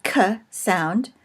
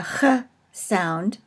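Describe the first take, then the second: First: K said as a hard "kuh" in "K sound". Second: Ch said as a throaty "khuh" in "Ch sound"; guttural Ch. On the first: Teacher giving Kaf's first pronunciation, hard K. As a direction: make the K in "K sound" a clean hard stop. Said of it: "either as a hard". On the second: Teacher giving Kaf's other pronunciation, guttural Ch. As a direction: rasp the Ch in "Ch sound" at the back of the throat. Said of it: "as in Loch or Bach". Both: Shown as a demonstration.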